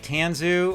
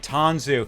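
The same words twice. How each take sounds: First: The name is said with a Chicago accent. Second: The name is said with a neutral accent.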